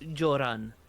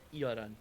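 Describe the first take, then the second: First: The name starts with a J sound. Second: The name starts with a Y sound. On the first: The speaker calls it wrong. "I think you said Joran" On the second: The speaker calls it right. "It's Yoran"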